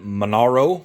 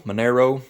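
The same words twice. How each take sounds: First: Monaro with an "ah" middle, muh-NAR-oh; unsure pronunciation. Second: Monaro with an "air" middle, muh-NAIR-oh; alternative pronunciation. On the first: Vlogger guessing a car's name, Monaro said muh-NAR-oh. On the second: Vlogger trying the car's name another way, Monaro said muh-NAIR-oh. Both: Real, not acted. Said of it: "if I mispronounced that".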